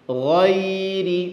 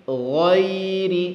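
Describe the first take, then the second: Both takes have the same delivery.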